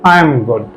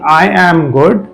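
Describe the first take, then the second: First: 'I am' is contracted to one syllable. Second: 'I am' is said as two full words. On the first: The speaker calls it right. "we say" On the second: The speaker calls it wrong. "instead of saying"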